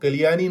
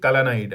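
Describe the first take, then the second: First: The name is pronounced as Kaliyani. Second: The name is pronounced as Kalanai. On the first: The speaker calls it wrong. "वो कलियानी नहीं" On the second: The speaker calls it right. "बल्कि कलानाई dam है"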